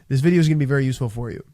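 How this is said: The pitch falls at the end of the sentence. The speaker calls it right. "I finished on a down tonality"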